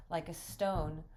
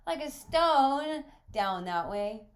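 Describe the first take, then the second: First: Said in the usual way. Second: Very high, loud, drawn-out echo; astonished boy. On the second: Acted. Boy questions visitor's swimming answer, loudly astonished. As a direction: repeat it slowly in loud, high disbelief.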